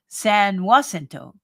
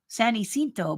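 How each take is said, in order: First: The name is said the Texan way. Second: The name is said in the standard way. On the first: "Texans say San Jacinto" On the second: "Should be San Jacinto"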